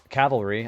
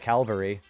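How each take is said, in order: First: The word is said with the 'v' before the 'l'. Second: The word is said with the 'l' before the 'v'. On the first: The speaker calls it right. "I didn't know how to say uh" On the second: The speaker calls it wrong. "I used to I used to say it as"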